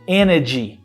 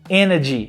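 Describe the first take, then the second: Both takes have the same delivery.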